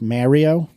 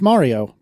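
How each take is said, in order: First: The name is said with an odd pronunciation. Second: The name is said with the usual pronunciation. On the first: It mimics how someone else says the name. The speaker calls it wrong. "your ridiculous pronunciation thereof" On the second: This is the version people recognize. The speaker calls it right. "They recognize Mario"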